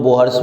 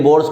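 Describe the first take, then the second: First: "बोहर्स" with an audible h in the middle; alternative pronunciation. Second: "बोर्स" as one syllable, no h sound; usual pronunciation. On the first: Teacher showing how some say it, "बोहर्स" with h sounded. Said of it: "कुछ कुछ लोग बोहर्स भी बोल देता है". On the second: Teacher naming the scientist the usual way, "बोर्स" without h. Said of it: "यही नहीं, बोर्स को". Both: Shown as a demonstration.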